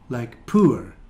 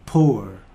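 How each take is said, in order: First: The vowel sounds like the one in 'poor'. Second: The vowel sounds like the one in 'door'. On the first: "some people use this sound for pour" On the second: "received pronunciation, so it sounds like door"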